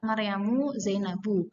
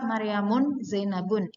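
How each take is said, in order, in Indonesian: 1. Setiap nama berakhir dengan vokal biasa, tanpa n. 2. Setiap nama berakhir dengan vokal lalu n. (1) "yang benar adalah" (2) "Tidak bisa ... itu salah kalau seperti itu"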